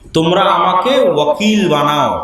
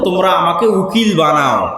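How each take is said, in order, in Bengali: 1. মূল শব্দটি 'wa' ধ্বনি দিয়ে শুরু হয়। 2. মূল শব্দটি 'oo' ধ্বনি দিয়ে শুরু হয়। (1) "যদিও সঠিক উচ্চারণ হচ্ছে ওয়াকিল" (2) "উচ্চারণে পার্থক্য"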